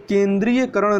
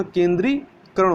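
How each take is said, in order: First: केंद्रीयकरण said with the extra य, as a wrong spelling; wrong form. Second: केंद्रीकरण said slowly, without the य; correct form. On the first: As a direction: sound out केंद्रीयकरण as the form to avoid. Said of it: "नहीं होता". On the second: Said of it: "होता है". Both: Shown as a demonstration.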